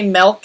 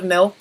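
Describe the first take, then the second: First: MILK with an E, "melk"; Canadian-style milk. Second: Said in the usual way. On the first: Shown as a demonstration. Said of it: "accidentally say milk instead of milk". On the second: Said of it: "instead of milk".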